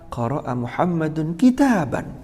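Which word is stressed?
kitaban. The stress falls on the last word, kitaban. It answers what Muhammad read. "Muhammad sedang membaca apa?"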